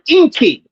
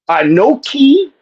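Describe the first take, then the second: First: The word is said with two syllables. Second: The word is said with three syllables. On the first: This is the Choctaw form. "They pronounce the word Inki" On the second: This is the biblical Hebrew form. "in Hebrew, that is pronounced"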